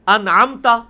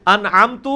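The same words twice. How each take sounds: First: انعمتا with a clear final a; the right ending, clear and even; correct a ending. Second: انعمت ending on u, short rising; the wrong ending, quick rise. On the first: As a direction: say انعمتا, the ت on a short a. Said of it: "تیرا انعام". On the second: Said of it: "میرا انعام". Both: Shown as a demonstration.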